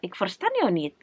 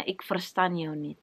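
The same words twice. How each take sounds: First: Brusque "Ik verstaan jou niet" with a falling end; a touch of an impatient Dutchman brushing her off; curt dismissive. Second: Quiet, slow and flat "Ik verstaan jou niet"; quiet matter-of-fact Dutch "I don't understand you"; flat Dutch reply. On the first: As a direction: clip "Ik verstaan jou niet" off like a cold, uninterested local. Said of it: "orang yang cuek ... langsung kayak". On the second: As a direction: say "Ik verstaan jou niet" softly and slowly, barely voiced. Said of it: "langsung dibilangnya". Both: Retold or imitated.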